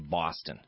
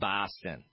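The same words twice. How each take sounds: First: Boston is said the way locals actually say it. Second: Boston is said as an outsider imitates the accent. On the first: The speaker calls it right. "but we say Boston" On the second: The speaker calls it wrong. "when you're doing the Boston accent, it is not Boston"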